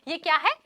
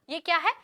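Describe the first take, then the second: No difference in how they are said.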